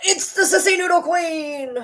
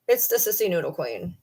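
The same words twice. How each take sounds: First: High, slow cooing at the dog; sing-song baby talk for the dog; high slow coo to greet the dog; doting pet voice. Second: Said in the usual way. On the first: Acted.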